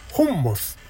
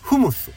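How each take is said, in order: First: The word is pronounced honmosu, with an n. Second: The word is pronounced fumusu, without an n. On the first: "ホンモスってここに……メニューに書いているけど" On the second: "別の言い方、まあ、発音の仕方"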